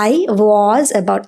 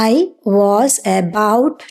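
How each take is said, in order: First: The words run together with a reduced 'was'. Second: Each word is said separately with full vowels. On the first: The speaker calls it right. "എപ്പോഴും വീക്ക് ഫോമാണ് നമ്മൾ use ചെയ്യുക" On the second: The speaker calls it wrong. "നിങ്ങൾ ആരും പറയണത് കേൾക്കില്ല"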